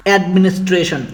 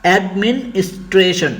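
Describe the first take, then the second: First: Said in the usual way. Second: administration split into syllables with small gaps. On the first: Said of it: "চলো আমরা আরো কয়েকটি দেখে নেই". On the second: Shown as a demonstration. Teacher dividing a hard word for learners, administration syllable by syllable. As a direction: break administration up, each syllable set apart. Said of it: "সিলেবলে ভাগ করি তাহলে দাঁড়ায়".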